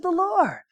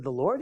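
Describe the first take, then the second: First: High and softened, falling with certainty; high knowing echo, settling down at the end; confirming echo. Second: Low, soft, rising like a question; small hesitant voice, lifting at the end; tentative answer. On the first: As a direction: confirm it as if obvious. Pastor's sure echo of answer. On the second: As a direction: answer meekly, unsure of it. His tentative answer, echoed by pastor. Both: Retold or imitated.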